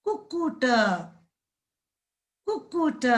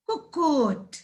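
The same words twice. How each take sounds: First: कुक्कुट said clearly, slightly high; careful demo word. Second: Said in the usual way. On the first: Shown as a demonstration. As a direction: model कुक्कुट for children. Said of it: "कु कु त". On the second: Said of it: "अभी बोलेंगे".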